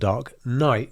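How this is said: The stress falls on the second word. The speaker calls it right. "it's emphasis on night"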